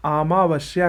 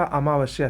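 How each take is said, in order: First: अमावस्या opening on long "aa"; wrong pronunciation. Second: अमावस्या opening on short "a"; correct pronunciation. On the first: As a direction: stretch the first vowel of अमावस्या. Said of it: "का अमावस्या सही है". (अमावस्या को "आमावस्या" बोलें) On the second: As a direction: keep the first vowel of अमावस्या short. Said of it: "अमावस्या सही है". (अमावस्या में छोटा "अ") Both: Shown as a demonstration.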